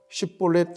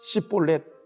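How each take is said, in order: First: The word begins with an sh sound. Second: The word begins with a tense s sound. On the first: "쉽볼렛 한번 해봐" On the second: "쉬라고 하는 발음을 못하고 쌍숏 발음을 하는"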